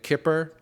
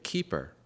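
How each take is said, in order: First: The first vowel is a short 'i' sound. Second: The first vowel is a long 'ee' sound. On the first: This is how many people say the name. "A lot of people say it Kipper" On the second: This is how the company says the name. "The company calls it a keeper"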